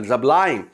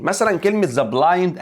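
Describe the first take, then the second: First: Said in the usual way. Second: "the blind" said slowly and higher, each word clear; careful model pronunciation. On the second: Shown as a demonstration. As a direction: draw out "the blind" for the class.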